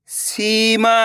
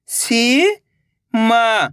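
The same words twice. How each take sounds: First: Said in the usual way. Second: Seema stretched very slowly, each sound held long. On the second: Shown as a demonstration. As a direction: drag out Seema for the learner. (सीमा को बहुत धीरे खींचकर बोलें) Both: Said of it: "तो मिलके बन जाएगा".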